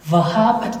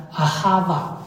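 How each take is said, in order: First: "vahabat" with a b and a final t; older "vahabat" pronunciation with b sound; older school reading. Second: "ahava" with a v and open ending; modern pronunciation. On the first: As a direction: say "vahabat", ending on a hard "bat". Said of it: "就像刚才我读这个词". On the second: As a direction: say "ahava", no b and no final t. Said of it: "现代人读就读成了". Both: Shown as a demonstration.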